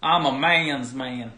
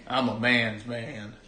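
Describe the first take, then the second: First: Put-on louder, slow southern accent; hammed southern accent repeat. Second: Put-on slow drawled southern accent; lightly voiced southern accent. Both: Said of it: "my southern accent?".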